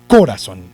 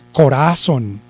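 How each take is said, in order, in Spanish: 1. El acento está en la primera sílaba. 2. El acento está en la segunda sílaba. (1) "Si lo llevara en co" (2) "Si lo llevara en ra"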